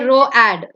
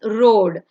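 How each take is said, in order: First: Both vowels are sounded as two syllables. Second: Only the first vowel is sounded, one syllable. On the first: The speaker calls it wrong. "you don't say row ad" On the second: The speaker calls it right. "it's road"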